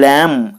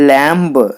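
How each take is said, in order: First: The word ends in m with no b sound. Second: The word ends with an audible b sound. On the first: The speaker calls it right. "ల్యామ్ అని పలకాలని" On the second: The speaker calls it wrong. "ల్యాంబ్ అనకూడదు"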